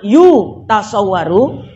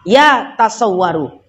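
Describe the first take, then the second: First: The first syllable has an 'u' vowel. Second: The first syllable has an 'a' vowel. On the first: It cannot be grasped or perceived. "Yang pertama dhamma" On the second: It is not possible. "yang kedua fathah"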